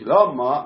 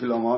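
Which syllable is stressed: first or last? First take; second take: first; last. First: The stress is on the first syllable. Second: The stress is on the last syllable. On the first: "מלעיל" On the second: "מלרע"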